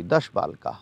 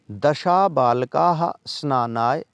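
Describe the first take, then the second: First: दश said short, dash with no final vowel; दश with the final vowel dropped, dash, said low; corrected pronunciation. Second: दशा said with a long final a, dasha; the mistaken reading दशा with a long open ending; दशा misread as dasha with a drawn-out final vowel; slip of the tongue. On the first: Shown as a demonstration. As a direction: fix it to a clipped दश, dash. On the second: Real, not acted. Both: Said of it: "दशा नहीं, sorry".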